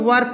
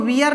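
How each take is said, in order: First: The vowel is a single plain 'er' sound. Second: The vowel glides from 'ee' to 'uh'. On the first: The speaker calls it right. "इसको हम लोग वर पढ़ते हैं" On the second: The speaker calls it wrong. "हम लोग इसको वियर नहीं पढ़ेंगे"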